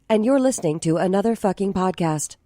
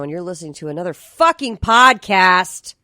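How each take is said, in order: First: It is said in a Siri impression. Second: It is said in her natural voice.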